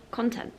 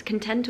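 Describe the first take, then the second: First: Content said as KON-tent, full first vowel; stressed on first syllable. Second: Content said as kuhn-TENT, weak first vowel; stressed on second syllable. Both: Shown as a demonstration. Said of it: "I don't know how you pronounce".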